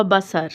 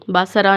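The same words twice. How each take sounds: First: बसर ending on a plain r; no vowel after r in बसर; stopped ending. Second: बसरा with "aa" after the r; wrong vowel ending. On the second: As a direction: end बसरा on an open "raa". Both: Shown as a demonstration. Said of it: "बसरा नहीं आएगा".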